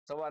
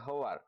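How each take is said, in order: First: The word begins with an s sound. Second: The word begins with an h sound. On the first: This is the standard form. "સ અને શ ને બદલે ઘણીવાર હ પણ બોલીએ" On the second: This is the Kathiyawadi dialect form. "સ અને શ ને બદલે ઘણીવાર હ પણ બોલીએ"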